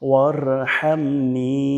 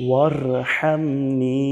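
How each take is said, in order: No difference in how they are said.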